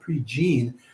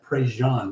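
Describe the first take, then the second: First: The name is read literally, like its English spelling. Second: The name is said with its Cajun pronunciation. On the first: "So it's spelled pre-Gene" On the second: "he's a Cajun man, so they pronounce that Prejean"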